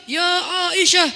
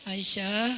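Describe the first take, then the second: First: Loud, high, booming call from the pulpit; pulpit shout. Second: Gently calling Aisyah. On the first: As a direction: bellow the name like an angry preacher. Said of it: "Pas di atas mimbar". (teriakan keras khatib di mimbar) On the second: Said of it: "Nabi ngomong pelan-pelan sama Aisyah". (panggilan lembut dan pelan) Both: Shown as a demonstration.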